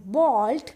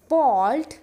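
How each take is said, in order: Both takes have the same delivery.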